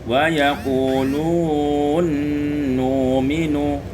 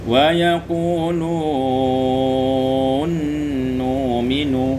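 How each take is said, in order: No difference in how they are said.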